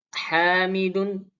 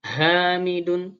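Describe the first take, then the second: First: Hamidun slow with a thin h; hamidun, light h. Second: Hamidun with a deep chest h; hamidun, h from low in the throat. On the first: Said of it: "ha lebih tipis". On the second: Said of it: "agak besar". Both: Shown as a demonstration.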